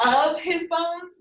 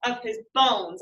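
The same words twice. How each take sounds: First: OF his bones, first word high and drawn out; trial stress on OF. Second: Of his BONES, weight on the last word; stress on BONES. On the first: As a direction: hit Of high, then fall through his bones. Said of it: "how would I say this?". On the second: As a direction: let of his run lightly into a firm bones. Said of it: "you can kind of feel it". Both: Shown as a demonstration.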